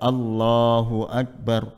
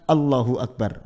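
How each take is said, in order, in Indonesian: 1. Vokal panjang pada Allah dibaca panjang sedang. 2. Vokal panjang pada Allah dipendekkan. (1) "Mestinya kan Allahu Akbar. Panjangnya jangan terlalu" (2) "mengurangi satu huruf ... Tidak ada matnya sedikit sama sekali"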